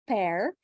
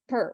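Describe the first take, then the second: First: The syllable has a full 'air' vowel. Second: The syllable has a short reduced vowel. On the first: The speaker calls it wrong. "it's not pair" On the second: The speaker calls it right. "it's uh per per"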